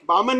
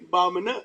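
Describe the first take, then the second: First: The word is said in a plain, neutral tone. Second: The word is said in a scornful, contemptuous tone. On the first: The speaker calls it wrong. "बामण नव्हे" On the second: The speaker calls it right. "म्हणजे तुच्छता दर्शक"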